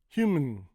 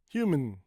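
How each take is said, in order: No difference in how they are said.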